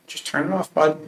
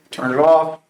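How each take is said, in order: First: Gentle coaxing. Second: Louder, firm "Turn it off"; now make him do it, no arguing; firmer order. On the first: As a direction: ease the scared kid into it. Coaxing panicking son to shut valve. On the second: Dad repeating the order to his flustered son, firm and louder. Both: Retold or imitated.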